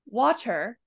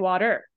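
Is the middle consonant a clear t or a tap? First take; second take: clear t; tap. First: The middle consonant is a clear t sound. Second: The middle consonant is a quick tap sound. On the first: "I said it with a T" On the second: "with a tap R sound"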